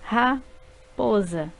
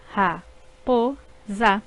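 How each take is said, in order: First: Said in the usual way. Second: Ra-po-za drawn out slowly in three beats; slow syllables. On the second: Shown as a demonstration. Teacher slowly splitting raposa into syllables. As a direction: stretch ra-po-za one syllable at a time. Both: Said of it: "formadas por três sílabas".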